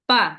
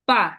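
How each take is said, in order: No difference in how they are said.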